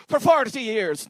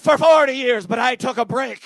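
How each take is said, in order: First: Put-on botched Italian accent, drawn out slowly; bad Italian accent. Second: Bad Italian accent. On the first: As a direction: attempt an old Italian barber and miss. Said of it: "that's not an Italian accent". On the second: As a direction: imitate an Italian accent badly but with gusto. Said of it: "I don't do accents".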